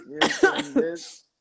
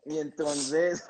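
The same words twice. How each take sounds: First: Slow, drawn out, high and loud; dramatic build-up. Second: Said in the usual way. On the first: Shown as a demonstration. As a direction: stretch it out for suspense. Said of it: "drawn out, high and loud". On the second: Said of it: "repeated, then drawn out".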